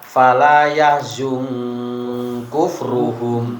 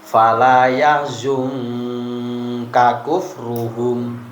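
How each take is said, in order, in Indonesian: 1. Dua bunyi k itu dibaca menyatu menjadi satu. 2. Dua bunyi k itu dibaca terpisah. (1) "Bukan dibaca" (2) "Ini kan ada huruf kaf sama ya"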